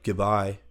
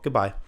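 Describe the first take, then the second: First: It is said in a cold, dismissive tone. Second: It is said in a warm, friendly tone. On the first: The speaker does not care about the person. The speaker calls it wrong. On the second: The speaker still cares about the person. The speaker calls it right.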